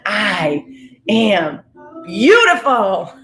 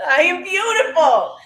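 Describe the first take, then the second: First: Slow, heartfelt affirmation, swelling on the last word; with feeling and conviction. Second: Very high, delighted affirmation after a laugh; giddy, high-pitched declaration; exuberant conviction. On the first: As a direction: declare it with conviction, stretching the final word. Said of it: "you say it with feeling". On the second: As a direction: sing it out high with feeling. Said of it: "You say it with conviction". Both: Shown as a demonstration.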